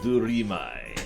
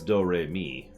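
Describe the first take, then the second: First: It does not sound like the musical notes. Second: It sounds like the musical notes do-re-mi. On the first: The pun is hidden. "say it in a way that doesn't immediately give away the pun" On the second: The pun is obvious. "I'm sure it's Do-Re-Mi"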